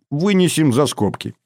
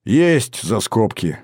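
First: Said in the usual way. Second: Smirking. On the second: A narrator's reading. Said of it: "ухмыльнулся Григоренко".

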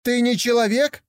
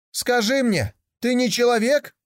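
First: Put-on high, eager young tiger voice; a curious cub wondering aloud; higher, childlike young tiger full of wonder; naive young tiger. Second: Put-on young tiger calling out. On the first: Young tiger asks yak. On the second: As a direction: shout the question to the camel. Tiger calls to camel.

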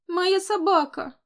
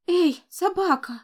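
First: Put-on high, slow childish wail; upset child. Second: Put-on high, slow child's call. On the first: Little boy insists the dog is his, high child voice. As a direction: claim it like a crying little boy. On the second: Little boy calls out to the fallen dog, high child voice. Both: A narrator's reading.

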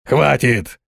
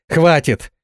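First: Echoed shout. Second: A high, sharp cry to stop it all; shout. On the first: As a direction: echo her cry, less forcefully. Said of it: "и дворф повторил её крик". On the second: Ganga ordering the sandstorm to stop, a high cry. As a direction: yell at the sand to stop. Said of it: "закричала Ганга". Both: A narrator's reading.

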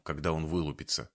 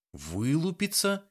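First: Said in the usual way. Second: High, slow, disbelieving question; incredulous echo. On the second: A narrator's reading. Young woman repeats his strange word in disbelief. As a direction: stretch the word out in shock. Valeria echoes him in disbelief.

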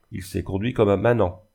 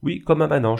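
First: Understated sarcasm on "comme un manant"; mildly scornful verdict; sarcastic. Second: "comme un manant" higher and louder; emphatic repetition. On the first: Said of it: "d'un ton sarcastique". (ton légèrement sarcastique) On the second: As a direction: insist on "comme un manant", voice raised. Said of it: "je le répète". (répétition appuyée de « comme un manant », plus fort) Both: A narrator's reading.

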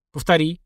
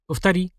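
First: Mildly brusque command to repeat; barked order. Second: Said in the usual way. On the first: A narrator's reading. Narrator ordering the mutant to repeat, lightly barked. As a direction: demand it curtly, without shouting. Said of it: "рявкнул я". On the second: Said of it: "попросил я".

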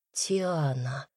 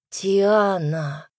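First: Soft first call. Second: Name repeated like a prayer. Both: A narrator's reading. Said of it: "повторил, словно молитву".

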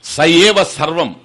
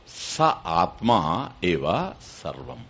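First: Loud, firm "స ఏవ సర్వం" as one phrase; emphatic recitation. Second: Slow, soft "స, ఆత్మ, ఏవ, సర్వం" with a break after each word; word-by-word gloss. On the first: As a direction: hit "ఏవ" high and strong, then fall on "సర్వం". Verse phrase recited before its gloss. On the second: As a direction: separate "స ఆత్మ ఏవ సర్వం" word by word, low and measured. Same phrase split up and glossed. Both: Shown as a demonstration.

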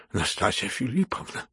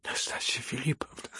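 First: Coaxing but uneasy address; alarmed persuasive plea. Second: Hushed, trembling whisper of her name; quavering whispered plea. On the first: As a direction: try to talk her round, worried. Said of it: "убеждающим, но встревоженным голосом". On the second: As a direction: breathe her name, shaken. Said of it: "дрожащим голосом проговорил". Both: A narrator's reading.

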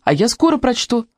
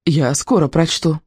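First: Said in the usual way. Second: Slow, pleased, gently proud; pleased repeat. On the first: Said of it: "попросила Катя". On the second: A narrator's reading. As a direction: savour the small win slowly. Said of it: "покраснела от удовольствия и повторила". (довольно, медленно повторить)

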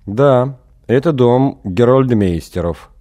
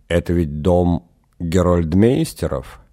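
First: Flat, slow, no expression; expressionless. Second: Said in the usual way. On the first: Acted. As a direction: answer with no feeling at all. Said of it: "без выражения ответили из окошка". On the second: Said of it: "переспросил Эгин".

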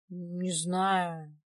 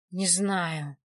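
First: Drawn-out, pondering "не знаю"; thoughtful. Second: Labored, strained "не знаю"; speaking with difficulty. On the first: Man asked what he was strangled with, pondering. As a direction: say it slowly, searching your memory. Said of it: "Владик задумался". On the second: Strangled man answering through a returning cough, with difficulty. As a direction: get it out with an effort. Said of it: "с трудом выговорил Владик". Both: A narrator's reading.

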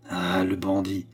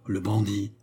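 First: Mild low growl at bandit. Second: Said in the usual way. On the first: A narrator's reading. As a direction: grumble "bandit" under the breath. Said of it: "gronda-t-il". (grondement sourd sur « bandit ») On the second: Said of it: "Qui donc appeliez-vous".

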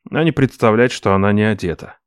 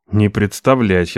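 First: Said in the usual way. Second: Slow, firm «Не представлять» with НЕ stressed. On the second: Acted. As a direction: press on «Не», say «Не представлять» slowly. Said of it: "я сказал".

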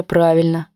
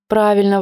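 First: Said in the usual way. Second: Put-on girl's question. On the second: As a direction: ask it like a child seeking approval. Varka asks mother's approval.

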